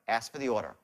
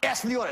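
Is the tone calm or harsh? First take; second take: calm; harsh. First: It is said in a calm, caring tone. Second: It is said in a harsh, pushy tone.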